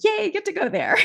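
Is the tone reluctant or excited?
excited. It sounds excited and enthusiastic.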